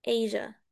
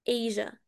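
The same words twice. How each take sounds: Both takes have the same delivery.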